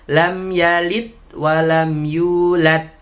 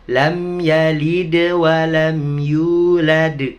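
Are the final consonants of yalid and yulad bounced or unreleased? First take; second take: unreleased; bounced. First: The consonants at 'yalid' and 'yulad' are not bounced. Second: The consonants at 'yalid' and 'yulad' are bounced. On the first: The speaker calls it wrong. "Nggak boleh" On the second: The speaker calls it right. "Begitu bacanya"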